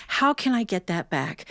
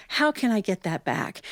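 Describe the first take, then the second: No difference in how they are said.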